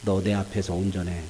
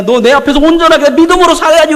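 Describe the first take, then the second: First: God scolding. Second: Loud booming rebuke with 믿음으로 punched hard; God scolding loudly. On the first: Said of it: "아주 혼내요". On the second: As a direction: scold Abraham at full volume. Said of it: "막 혼내요". (큰 소리로 꾸짖듯, 믿음으로를 힘주어) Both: Acted.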